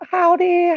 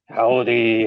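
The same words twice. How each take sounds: First: It is said in a high pitch. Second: It is said in a low pitch.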